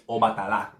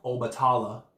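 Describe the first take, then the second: First: Obatala said o-ba-ta-LA, open vowels; correct pronunciation. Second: Obatala said oh-buh-TAH-luh; wrong pronunciation. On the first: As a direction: correct Obatala, ending on a full LA. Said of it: "incorrect ways I've heard it". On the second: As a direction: demonstrate the mistaken Obatala, stressing TAH. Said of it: "is not Obatala". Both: Shown as a demonstration.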